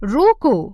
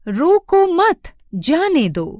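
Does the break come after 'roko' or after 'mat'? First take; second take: after roko; after mat. First: The break comes after the word 'roko'. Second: The break comes after the word 'mat'. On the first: Stop him; do not let him go. "रोको, अल्प विराम, मत जाने दो" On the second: Do not stop him; let him go. "पहले वाक्य में एक सामान्य बात कही जा रही है कि उसको रोकना मत, जाने देना"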